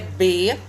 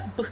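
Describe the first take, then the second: First: It is said as a syllable with a vowel. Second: It is said as a bare consonant sound. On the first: This is the name of the letter. "o nome da letra é B" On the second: This is the sound the letter makes. "mas o som é B"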